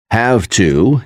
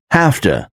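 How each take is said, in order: First: Said in the usual way. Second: "have to" run together as HAF-tuh; casual blended "have to", sounding like hafta; reduced have to. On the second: Shown as a demonstration. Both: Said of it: "is pronounced as".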